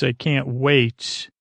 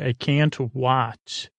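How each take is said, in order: First: Said in the usual way. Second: "wat" read as spelt, with an ah vowel; literal misreading. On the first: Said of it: "I mean, I assume it's". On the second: Shown as a demonstration. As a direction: say "wat" to rhyme with hot, slowly. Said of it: "this is literally what my handwriting says".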